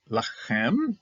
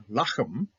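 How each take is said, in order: First: Lachem with the last syllable stressed, rising; stress on final syllable. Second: Lachem with the first syllable stressed; Lachem, accent up front on the first syllable. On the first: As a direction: say Lachem as la-KHEM, slowly. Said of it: "so that's Milra". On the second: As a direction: say Lachem as LA-khem, the ending light. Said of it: "here the accenting went upwards". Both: Shown as a demonstration.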